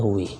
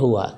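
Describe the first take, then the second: First: The word ends in an i vowel. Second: The word ends in an a vowel. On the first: The speaker calls it wrong. "tidak ada huwi" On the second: The speaker calls it right. "selalu fathah"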